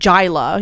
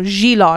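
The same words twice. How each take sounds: First: The name has an English-style pronunciation. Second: The name has its native Persian pronunciation. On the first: The speaker calls it wrong. "not Jila" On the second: The speaker calls it right. "actually, it's, you know, Jila"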